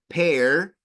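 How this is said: The final R sound is clearly pronounced. "en inglés americano se, esto suena pear, pear, suena la R"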